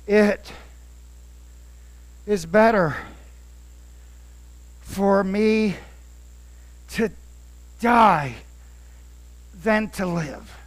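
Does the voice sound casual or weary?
weary. It is said in an exhausted, worn-out way.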